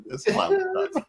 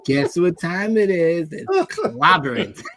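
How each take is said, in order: First: High, laughing, no emphasis; flat catchphrase, laughing. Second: Rising into a high laughing catchphrase; Thing catchphrase, laughing. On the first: Mocking the movie's flat delivery, laughing. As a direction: say it casually, almost throwaway. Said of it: "He just kinda says it". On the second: Mimicking the movie Thing's line, laughing and high. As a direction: crack up as you deliver the catchphrase. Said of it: "that's what he says in the movie". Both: Retold or imitated.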